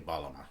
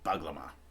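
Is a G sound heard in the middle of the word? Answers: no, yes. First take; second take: no; yes. First: No G sound is said in the middle. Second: A G sound is said in the middle. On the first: "just forget about that G and just say Balama" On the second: "it looks like it's called Baglama"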